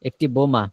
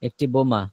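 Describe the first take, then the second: No difference in how they are said.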